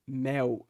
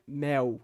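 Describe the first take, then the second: No difference in how they are said.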